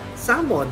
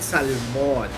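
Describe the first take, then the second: First: The L is silent. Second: The L is sounded. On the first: "tamang pronunciation is salmon, walang L, silent L" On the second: "sa Filipino, sa atin"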